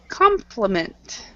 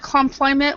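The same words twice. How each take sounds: First: The stress falls on the first syllable. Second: The stress falls on a later syllable. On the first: The speaker calls it right. "the first syllable is what's uh, what is uh, uh, stressed" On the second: The speaker calls it wrong. "instead of compliment"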